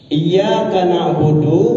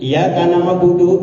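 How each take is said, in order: First: The doubled consonant and long vowel are held. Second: The consonant is single and the vowel short. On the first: It means God is the one who gives blessings. The speaker calls it right. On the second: The meaning becomes different. The speaker calls it wrong.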